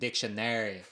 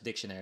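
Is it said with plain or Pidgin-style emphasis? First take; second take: Pidgin-style; plain. First: It is said with strong Pidgin-style syllable emphasis. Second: It is said plainly, without strong syllable emphasis.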